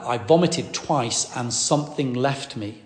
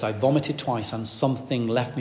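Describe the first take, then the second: First: I vomited twice and something left me said slowly, each word weighed; slow, weighty quote. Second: Said in the usual way. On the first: Retold or imitated. Preacher retelling Faye's words to the congregation, slow and weighty. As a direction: lay out her exact words slowly. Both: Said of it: "that was her exact words".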